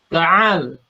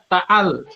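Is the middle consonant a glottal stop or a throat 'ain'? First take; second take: throat 'ain'; glottal stop. First: The middle consonant is a throaty 'ain' sound. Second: The middle consonant is a plain glottal stop. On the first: The speaker calls it right. "tapi ta'al" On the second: The speaker calls it wrong. "Jangan dibaca ta'al"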